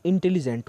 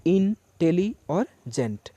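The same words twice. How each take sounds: First: Said in the usual way. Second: "इन, tele और gent" broken into separate parts with pauses; split into syllables. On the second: Shown as a demonstration. Teacher dividing intelligent into three syllables, spaced out. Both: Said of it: "तीन syllable में यदि आप बांटेंगे".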